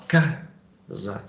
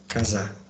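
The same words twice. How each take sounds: First: "casa" stressed on the first syllable, slow; correct form casa. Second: "Casar" with the final R dropped, stressed on the last syllable; wrong form casar. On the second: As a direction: say "Casar" as the mistaken word, stress on -sar. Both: Shown as a demonstration. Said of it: "Você fala casa".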